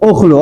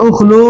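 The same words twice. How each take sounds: First: উখলু clipped to two syllables, ukh-lu; brisk contracted উখলু, ukhlu; short simplified form. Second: উখলু drawn out with the vowel kept, u-khu-lu; careful stretched উখলু with the middle u; slow full form. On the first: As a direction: say উখলু quickly with the middle vowel dropped. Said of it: "আর এখন দেখেন আপনি শুধু বলবেন উখলু". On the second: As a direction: spell out উখলু slowly in the long original form, every vowel sounded. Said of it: "একটু সময় নিয়ে আপনি উচ্চারণ করতেছেন". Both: Shown as a demonstration.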